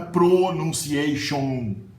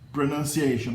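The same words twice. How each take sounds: First: The unstressed vowels keep their full sounds. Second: The unstressed vowels become a weak uh sound. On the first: The speaker calls it wrong. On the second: The speaker calls it right.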